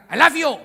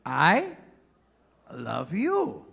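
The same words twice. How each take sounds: First: High, loud, quick "I love you"; barked wrong way. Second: "I", pause, "love you" with swooping tune; romantic tone. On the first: Comic showing how Americans can't say it, loud and abrupt. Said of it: "nggak bisa bilang". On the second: Comic showing the proper tone, slow, romantic swoops. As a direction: glide up on "I", then let "love you" fall. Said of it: "Nadanya harus". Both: Shown as a demonstration.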